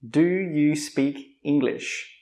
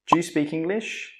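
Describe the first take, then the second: First: It is said slowly with 'do you' fully pronounced. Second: It is said quickly with 'do you' reduced.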